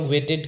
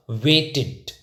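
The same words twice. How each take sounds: First: "वेटेड" with an open e in the ending, WAY-ted; wrong pronunciation. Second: "वेटेड" said slowly as WAY-tid, short i; teacher's model "वेटेड" with -id ending; correct pronunciation. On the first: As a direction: end "वेटेड" in -ted, as in bed. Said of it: "तो ये गलत है". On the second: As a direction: end "वेटेड" in -tid, as in lid. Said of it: "ये correct है". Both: Shown as a demonstration.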